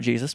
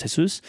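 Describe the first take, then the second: First: "Jesus" as JEE-zus; English pronunciation. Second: "Jesus" as heh-SOOS; Spanish pronunciation. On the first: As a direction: give "Jesus" a hard English J, stressed first. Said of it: "not, uh, not Jesus". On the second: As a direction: give "Jesus" an H and stress the final oos. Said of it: "I asked him". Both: Shown as a demonstration.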